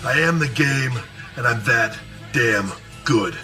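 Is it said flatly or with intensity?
intensity. It is said intensely, with conviction.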